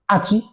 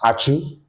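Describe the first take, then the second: First: The name ends with an 'ee' vowel. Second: The name ends with an 'oo' vowel. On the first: The speaker calls it wrong. "he couldn't pronounce the Achu well. So he said" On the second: The speaker calls it right. "Instead of him to say Ash, Achu"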